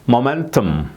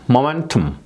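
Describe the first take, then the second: Both takes have the same delivery.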